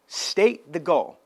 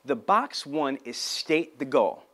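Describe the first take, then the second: First: "State the goal" slow, each word pressed down; stressed repeat. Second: Said in the usual way. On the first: Shown as a demonstration. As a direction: hammer "State the goal" home.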